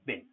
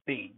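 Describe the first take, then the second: First: The word has a short vowel, like bin. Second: The word has a long vowel, like bean. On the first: The word is said inside a sentence. "when we see it in sentences, we say bin" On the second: The word is said on its own. "when we see bean in isolation, bean in itself, it's bean"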